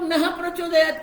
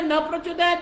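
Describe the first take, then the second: First: The sound after 'na' is an h sound. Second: The sound after 'na' is dropped entirely. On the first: "कई लोग नह प्रचोदयात कहते हैं" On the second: "जल्दी बोलने में न प्रचोदयात भी करते, वो विसर्ग उठ जाता है"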